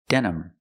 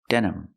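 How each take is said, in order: No difference in how they are said.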